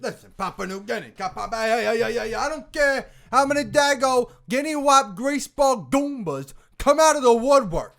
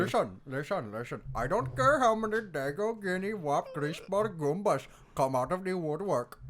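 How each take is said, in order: First: High, loud mobster tirade; movie-line second take. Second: Put-on mobster line in an Indian accent. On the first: Acted. Actor performing a Godfather line for his co-hosts, loud high tirade. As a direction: belt out the mobster line, pitched well up. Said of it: "second take here". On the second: Actor redoing a Godfather line for laughs, Indian accent. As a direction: redo the tirade with an Indian accent. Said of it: "in an Indian accent".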